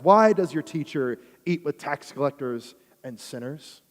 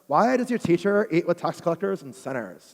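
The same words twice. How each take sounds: First: It is read in the speaker's ordinary voice. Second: It is read in a put-on Valley Girl voice.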